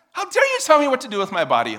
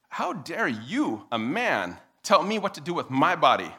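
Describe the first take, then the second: First: High, loud mock fury; scary outraged shout. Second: Slow, emphatic mock indignation; indignant objection. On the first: Someone furiously confronting the nervous speaker, scary outrage. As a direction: explode in pretend indignation. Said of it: "that's just scary". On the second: Woman objecting to a man, deliberately indignant. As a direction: spell out the outrage word group by word group. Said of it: "here's the next obli-, uh, objection".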